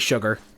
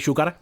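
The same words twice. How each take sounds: First: The ending is said like 'ger'. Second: The ending is said like 'gar'. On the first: "I feel like I'm stretching my pronunciation saying it normally" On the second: "it is legitimately easier for me to say sugar"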